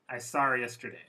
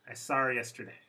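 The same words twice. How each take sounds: No difference in how they are said.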